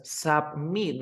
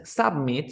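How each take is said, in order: First: "submit" slow, as sub-MIT; "submit" weighted on its end; stress on last syllable. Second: "submit" as SUB-mit; misplaced stress at the start of "submit"; wrong first-syllable stress. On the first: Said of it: "Es submit". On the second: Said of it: "no es submit". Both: Shown as a demonstration.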